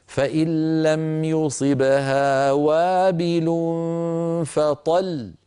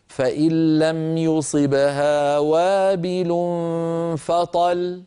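First: Slow recitation ending فطل with a small push on the final lam; chanted verse with stressed pausal lam; pause with pressure. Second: Slow recitation ending فطل with a single light lam, no pressure; deliberately flawed recitation dropping the double lam; wrong pausal form. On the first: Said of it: "هكذا". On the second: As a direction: recite it but let فطل end on one lam like بطل. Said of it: "هذا لا يصح أبدًا". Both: Shown as a demonstration.

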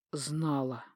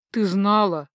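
First: "Знала" dropped low and soft; low, quiet falling statement on "Знала"; grim self-answer. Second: "знала" pushed up as a question; pointed questioning stress on "знала"; accusing question. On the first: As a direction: let "Знала" fall, a hushed conclusion. Husband answers his own question. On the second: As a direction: press her on "знала". Husband confronts wife with question. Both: Acted.

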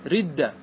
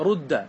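First: رد said "ridda", with i after the r; kasra vowel. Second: رد said "rudda", with u after the r; damma vowel. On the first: Teacher giving a second variant, رد with kasra, "ridda". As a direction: put a short i in رد: "ridda". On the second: Teacher giving a permitted variant, رد with damma, "rudda". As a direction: put a short u in رد: "rudda". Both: Shown as a demonstration. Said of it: "لك فيها ثلاث لغات".

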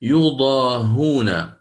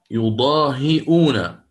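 First: يضاهون very slow, hamza dropped, ha with u: yudahun; يضاهون stretched out, no hamza, ha with damma; Ibn Kathir reading. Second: يضاهئون slow, with the hamza sounded: yudahi'un; يضاهئون drawn out, hamza kept before the u; Hafs reading. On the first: Teacher reciting Ibn Kathir's reading, slow and careful. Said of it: "ابن كثير قرأ". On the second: Teacher reciting Hafs's reading to students, slow and careful. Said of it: "الإمام حفص قرأ". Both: Shown as a demonstration.

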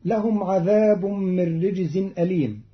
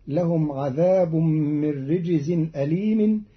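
First: Said in the usual way. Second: أليم ending in a kasra, "alīmin"; Qalun reading. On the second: Shown as a demonstration. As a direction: run أليم on with "-in". (أليم بخفض الميم في الوصل) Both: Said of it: "الوصل بخفض الميم".

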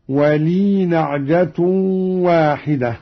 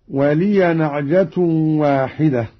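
First: ولي read with a still ya, no vowel; وليْ joined straight to نعجة; silent ya. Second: Said in the usual way. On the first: Shown as a demonstration. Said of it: "بإسكان الياء هكذا في الوصل". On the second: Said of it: "قرأ قالون بإسكان الياء".

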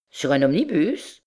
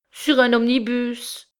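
First: Questioning swoop on omnibus; astonished echo. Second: High, slow, upset voice; tearful answer. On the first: Cousin echoes her, astonished. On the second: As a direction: answer slowly, close to tears. Wife answers cousin, tearful. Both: A narrator's reading.

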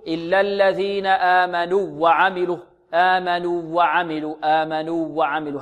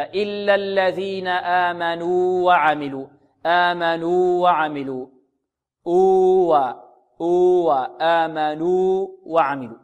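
First: آمنوا وعملوا run together as "aamanuwwa'amilu", doubled w; short u fused into a doubled w in آمنوا وعملوا; waw merged into waw. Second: آمنوا وعملوا with long "uu" held, then separate "wa"; slow, clear "aamanuu wa'amilu", no merging in آمنوا وعملوا; both waws distinct. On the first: Retold or imitated. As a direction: imitate a student merging the two waws in آمنوا وعملوا. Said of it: "لعل بعض الطلاب يقول". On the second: Shown as a demonstration. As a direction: hold the uu of آمنوا fully before وعملوا, slowly. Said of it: "تظهر من الواو الثانية هكذا".

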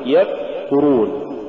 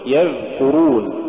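First: يذكرون with the dhal cut dead; blocked dhal and a gap in يذكرون; choked-off dhal. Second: يذكرون with the dhal sound flowing; yadh-kurun, continuous dhal in يذكرون; soft flowing dhal. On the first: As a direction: stop the sound before the k in يذكرون. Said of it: "ولا تقل". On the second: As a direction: let the th-as-in-this run in يذكرون. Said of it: "قل". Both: Shown as a demonstration.

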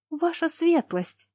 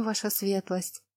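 First: High, slow, startled cry; alarmed gasp. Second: Slow, hushed and soft; hushed whisper. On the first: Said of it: "Лана охнула". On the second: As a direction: murmur it timidly. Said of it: "прошептала камеристка". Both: A narrator's reading.

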